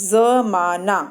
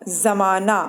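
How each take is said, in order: The two takes are said the same way.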